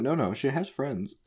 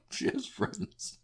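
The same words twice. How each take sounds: First: Higher, slow, insistent reassurance; earnest explaining. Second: High, squeaky, slow through held-back laughter; softer, strained high voice about to crack up; stifled laugh. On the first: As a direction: hurry to correct the joke, stretching it out. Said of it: "I have to explain". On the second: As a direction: try to say it straight while fighting giggles. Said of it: "I stifle my laugh". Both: Retold or imitated.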